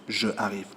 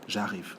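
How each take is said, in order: First: The vowel of je is fully pronounced. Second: The vowel of je is dropped and linked. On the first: The speaker calls it wrong. "we think it is ugly to say" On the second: The speaker calls it right. "So we say"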